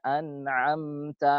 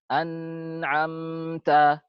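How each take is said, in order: First: The n sound is held for a medium length. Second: The n sound is held for too long. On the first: The speaker calls it right. "Tidak terlalu panjang, tidak terlalu pendek" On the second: The speaker calls it wrong. "terlalu panjang zamannya dia"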